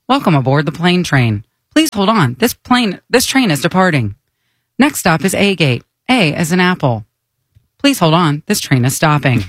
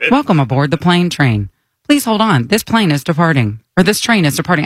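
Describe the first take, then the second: First: Monotone automated announcement; flat recorded train voice; monotone train announcer. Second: Flat recorded train voice; monotone train announcer. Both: Acted. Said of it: "She's so monotone".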